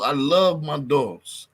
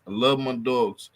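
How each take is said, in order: First: "love" drawn out and stressed; heartfelt slow "love". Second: Said in the usual way. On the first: Real, not acted. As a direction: lean slowly on "love". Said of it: "repeated with emphasis". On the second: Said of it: "repeated plainly".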